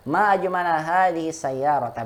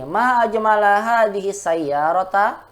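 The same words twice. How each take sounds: First: Ma ajmala hadhihi sayyarata with a falling, admiring tune; exclamation of wonder. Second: Ma ajmala hadhihi sayyarata said as a rising question; wrong question tune. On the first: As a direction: marvel at the car. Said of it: "Begitu caranya". (nada takjub yang benar) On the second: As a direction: ask it, don't marvel. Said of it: "Itu pertanyaan". (nada bertanya yang salah) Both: Shown as a demonstration.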